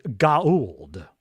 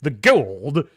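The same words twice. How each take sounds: First: Goa'uld said slowly as "go-a-uld", two clear syllables; Goa'uld the proper way, like Daniel; proper pronunciation. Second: Texan Goa'uld said like "kuld", louder; Texan general saying Goa'uld; Texan accent. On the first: Shown as a demonstration. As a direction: pronounce Goa'uld carefully, slow. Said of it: "Daniel says it with the appropriate inflections". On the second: Retold or imitated. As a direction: drawl Goa'uld as one syllable, Texan. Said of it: "That's a Texan way of saying Goa'uld".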